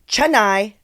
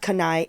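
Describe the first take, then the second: First: The word begins with a ch sound. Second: The word begins with a k sound. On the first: The speaker calls it right. "Now I know it's Roti Canai" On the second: The speaker calls it wrong. "not Kanai"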